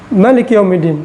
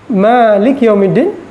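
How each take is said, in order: First: The first vowel in Malik is short. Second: The first vowel in Malik is long. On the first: God is the king of the Day of Judgment. "tidak ada alif" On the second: God is the owner of the Day of Judgment. "Yang pertama diajarkan"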